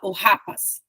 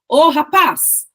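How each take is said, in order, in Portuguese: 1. A tônica está na primeira sílaba. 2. A tônica está na última sílaba.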